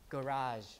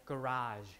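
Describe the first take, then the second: The two takes are said the same way.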